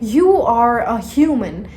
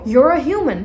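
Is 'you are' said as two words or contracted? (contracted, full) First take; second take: full; contracted. First: You are is said as two separate words. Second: You are is shortened into one syllable.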